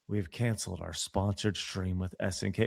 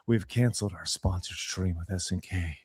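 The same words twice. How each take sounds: First: It is read in a plain, ordinary voice. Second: It is said in a dark, brooding, heroic voice.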